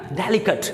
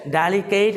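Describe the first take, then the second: First: ڈیلیکیٹ with short kət end; correct pronunciation. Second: ڈیلیکیٹ with keyt ending; wrong take ڈیلیکیٹ, de-li-keyt; wrong pronunciation. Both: Shown as a demonstration. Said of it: "ڈیلیکیٹ نہیں کہنا".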